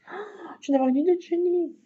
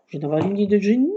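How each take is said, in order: First: High, fast and bright with excitement; excited idea. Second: Quick and louder, excited; sudden idea. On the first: To viewers, thrilled by her genius idea. Sudden craft idea again. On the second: To viewers, announcing her brilliant idea excitedly. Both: Real, not acted.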